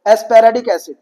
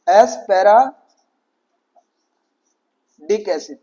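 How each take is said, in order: First: Said in the usual way. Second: Asparagic एसिड stretched very slowly, syllable by syllable; drawn-out spelling-style reading. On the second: Shown as a demonstration. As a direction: draw out asparagic so the D sound is clear. (asparagic एसिड को बहुत धीरे, एक-एक अक्षर खींचकर बोलो) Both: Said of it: "उसको आप पढ़ो कैसे?".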